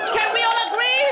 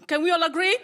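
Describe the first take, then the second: First: Higher, louder crowd-rousing question; loud rallying call. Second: Said in the usual way. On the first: Real, not acted. Comic asking the audience to agree, loud rallying call. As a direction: call it out to the whole room.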